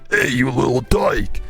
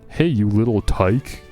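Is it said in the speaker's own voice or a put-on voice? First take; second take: put-on voice; own voice. First: It is said in a put-on Surge voice. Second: It is said in his own normal voice.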